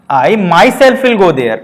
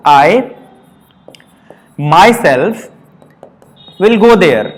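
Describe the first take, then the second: First: Myself leaned on hard, the whole line very slow; stress on myself. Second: I, myself, will go there, each word set apart by a long pause; the word myself said alone, slow and separate, with pauses round it. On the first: Teacher showing students how to stress myself, very slow. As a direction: press down on myself, slowly. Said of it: "जोर देकर बोला". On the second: Teacher spelling out the example for students, word by word with pauses. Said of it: "जैसे मैंने कहा". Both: Shown as a demonstration.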